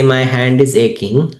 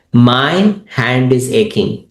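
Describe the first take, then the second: First: Said in the usual way. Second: Slow, with "My" drawn out and set apart; stress on MY. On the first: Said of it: "I'm emphasizing on this word". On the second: Shown as a demonstration. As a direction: lean on "My", pause slightly, then finish. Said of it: "I'm emphasizing on this word "my".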